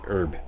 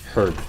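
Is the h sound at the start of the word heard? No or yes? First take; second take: no; yes. First: The word begins with a vowel, no h. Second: The word begins with an audible h sound. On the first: This is how Americans say it. The speaker calls it wrong. "I know Americans don't use the H" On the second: This is how Canadians say it. The speaker calls it right. "we say herb. Okay, that's that's correct"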